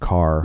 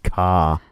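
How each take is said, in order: First: The final r sound is pronounced. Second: The final r sound is dropped. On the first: "instead of" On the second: "people from a town that says "ka""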